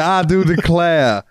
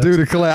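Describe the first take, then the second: First: Slow, high southern belle "I do declare". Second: A southern belle saying "Do declare"; lightly hammed southern accent, higher pitch; southern drawl. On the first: Acted. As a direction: draw out "I do declare" in a hammy southern accent, higher. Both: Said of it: "went really southern".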